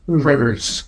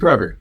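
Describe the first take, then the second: First: The word ends with an added s sound. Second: The word ends without an s sound. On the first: The speaker calls it wrong. "People in Ohio do it too" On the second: The speaker calls it right. "There's no S"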